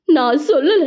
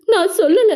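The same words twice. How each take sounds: First: Crying out the denial; tearful, scared plea; frightened crying. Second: Much higher, sob-laugh panic; breaking into a frantic sob; panicked sob. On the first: (அழுகையுடன் பயந்த குரல்) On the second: (மிக உயர்ந்த பதற்ற அழுகை) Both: A narrator's reading. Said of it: "அரண்டு கூறினாள்".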